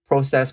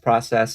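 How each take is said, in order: First: The word is said with a Canadian pronunciation. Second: The word is said with an American pronunciation. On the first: "whenever I say that word" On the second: "they say it a different way"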